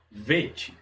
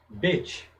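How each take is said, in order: First: The word begins with a V sound. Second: The word begins with a B sound. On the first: The letter has no dot in its middle. "som de V" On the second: The letter carries the dot in its middle. "ele tem como pronúncia B"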